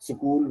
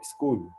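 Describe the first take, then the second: First: An extra vowel is added around the s sound. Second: It starts directly with an s-k cluster. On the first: The speaker calls it wrong. "थोड़ी हमारी जबान बिगड़ी हुई है, स्कूल बोल देते हैं" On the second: The speaker calls it right. "असल में ये वर्ड है स्कूल"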